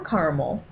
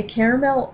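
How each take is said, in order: First: "caramel" said as CAR-mul; two-syllable caramel. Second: "caramel" said as CARE-uh-mel; three-syllable caramel. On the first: Speaker guessing what listener wants, "caramel" as CAR-mul. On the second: Speaker guessing what listener wants, "caramel" as CARE-uh-mel. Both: Shown as a demonstration. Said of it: "saying caramel or caramel depending".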